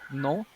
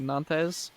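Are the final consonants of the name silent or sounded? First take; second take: silent; sounded. First: The name is said with its final consonants silent. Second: The name is read with its final consonants sounded. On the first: The speaker calls it right. "I learned the pronunciation is no" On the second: The speaker calls it wrong. "if you looked at the word in English, it would be Nantes"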